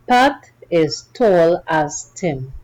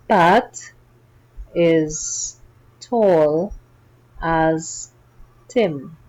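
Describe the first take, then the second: First: The sentence is read at a faster pace. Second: The sentence is read at a normal pace. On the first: "Let's read it faster" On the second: "Read it with me now"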